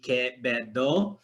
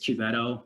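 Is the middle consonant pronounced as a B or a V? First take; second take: B; V. First: The middle consonant is a B sound. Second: The middle consonant is a V sound. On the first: It follows the native Filipino sound system. The speaker calls it right. "So it would become a B" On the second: It follows English habits. The speaker calls it wrong. "I really Americanized the pronunciation of my name"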